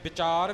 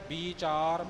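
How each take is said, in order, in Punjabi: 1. ਇਹ ਸ਼ਬਦ v ਆਵਾਜ਼ ਨਾਲ ਸ਼ੁਰੂ ਹੁੰਦਾ ਹੈ। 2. ਇਹ ਸ਼ਬਦ b ਆਵਾਜ਼ ਨਾਲ ਸ਼ੁਰੂ ਹੁੰਦਾ ਹੈ। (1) "ਤੇ ਵਿਚਾਰ ਵੀ ਨਹੀਂ ਹੈ" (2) "ਵਿਚਾਰ ਬੱਬੇ ਨੂੰ ਬਿਹਾਰੀ ਲੱਗੀ ਹੋਈ ਹੈ"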